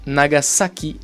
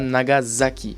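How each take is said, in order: First: The middle consonant is a clear S sound. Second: The middle consonant is a voiced Z sound. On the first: The speaker calls it right. "ou dans Nagasaki" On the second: The speaker calls it wrong. "et pas Nagasaki"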